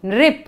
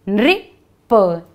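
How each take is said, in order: First: Said in the usual way. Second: नृप split slowly as "nri, pa"; word sounded out. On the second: Shown as a demonstration. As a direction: sound out नृप piece by piece, with a gap. (नृप को धीरे, तोड़कर बोलें: नृ, प) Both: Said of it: "कौन सा शब्द बना है ये?".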